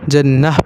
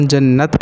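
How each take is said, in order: First: جنح closed on a breath of h; final h stop. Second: جنت closed on a clear t; pronounced final t. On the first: Teacher explaining round ta, جنح stopped with h. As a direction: say جنح ending "-ah", with no t. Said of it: "وگرنہ ہم اسے جنح پڑھیں گے". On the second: Teacher explaining long-shaped ta, جنت stopped with t. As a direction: say جنت ending "-at". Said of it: "تب اسے ہم جنت پڑھیں گے". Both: Shown as a demonstration.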